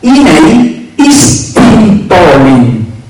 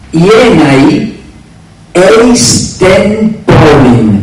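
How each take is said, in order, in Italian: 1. Le parole centrali si fondono in un unico suono, "istin". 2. Le parole centrali suonano come "eis ten", separate. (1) "Nella pronuncia bizantina" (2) "nella pronuncia erasmiana"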